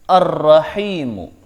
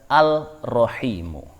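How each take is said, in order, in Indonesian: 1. Bunyi l melebur ke konsonan ganda yang mengikutinya. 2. Bunyi l dibaca jelas sebelum konsonan itu. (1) "maka cara bacanya" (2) "Tidak boleh membaca"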